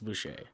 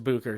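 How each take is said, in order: First: The middle consonant sounds like sh. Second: The middle consonant sounds like k. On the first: This is a French-style reading of the name. The speaker calls it wrong. "nah, it's Boucher... yeah, it's French" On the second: This is how the name's owner says it. The speaker calls it right. "well, it's Booker"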